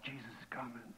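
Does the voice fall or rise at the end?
fall. The voice falls at the end. The man is stating it with confidence. "His eyes so positive"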